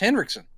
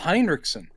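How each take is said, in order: First: The first syllable has no added 'i' sound. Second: The first syllable has an added 'i' sound. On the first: The speaker calls it right. "It's just Henriksen" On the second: The speaker calls it wrong. "you're putting an I in there"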